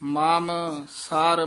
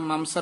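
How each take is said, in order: First: The two words are kept apart. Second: The two words are run together. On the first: The speaker calls it right. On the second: The speaker calls it wrong.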